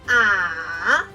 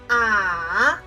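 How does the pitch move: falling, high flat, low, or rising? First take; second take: low; low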